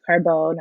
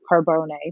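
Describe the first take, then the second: First: The name is said with an American pronunciation. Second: The name is said with an Italian pronunciation.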